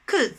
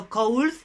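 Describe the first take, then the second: First: "Could." said short as ku, with no L sound; a short, clean "Could." with a silent L; correct pronunciation. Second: "could" said like kol, with a full O and an L at the end; "could" with an O vowel and a final L, the mistake to avoid; wrong pronunciation. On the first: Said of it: "Repeat after me". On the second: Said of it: "The pronunciation is not could, no could". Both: Shown as a demonstration.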